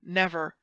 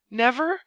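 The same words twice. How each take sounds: First: NEVER at usual pitch, falling at the end; firm refusal. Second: NEVER high and loud, rising at the end; heightened refusal. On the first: The duke refuses to sign, "Never" firm and falling. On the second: The duke refuses under threat, "Never" high and rising. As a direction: throw "Never" upward, louder. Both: A narrator's reading.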